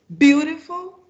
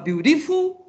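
First: The stress is on the first syllable. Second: The stress is on the second syllable. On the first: "vocês vão sublinhar o bill" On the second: "vocês vão underlinezar o T"

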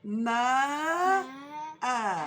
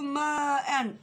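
First: The word ends with a long vowel. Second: The word ends with an n sound. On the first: The reader pauses at the end of the sentence. "cümlenin sonuna gelmiş duraksa" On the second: The word is in the middle of a sentence. "eğer ki cümlenin içindeyse"

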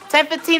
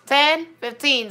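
First: The number is said at a normal pace. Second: The number is said slowly, with a gap.

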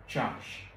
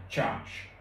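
No difference in how they are said.

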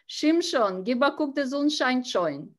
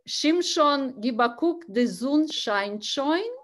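First: The phrase is spoken quickly, run together. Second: The phrase is spoken at a normal pace.

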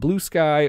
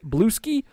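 First: The name ends with the sound of 'sky'. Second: The name ends with the sound of 'ski'. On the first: The speaker calls it right. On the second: The speaker calls it wrong.

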